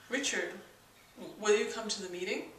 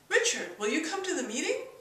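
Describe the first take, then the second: First: The pitch stays level throughout. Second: The pitch rises at the end. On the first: It assumes the answer already. "the flat tone, which is sort of an assumption. And there's no inflection in that at all" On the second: It asks a real question. "There's the question tone"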